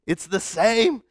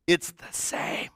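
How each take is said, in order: First: Said in the usual way. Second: Hushed, slowed whisper. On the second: Shown as a demonstration. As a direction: breathe it as a quiet aside. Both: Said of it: "repeated for emphasis".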